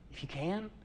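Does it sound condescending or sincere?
sincere. It is said sincerely, without condescension.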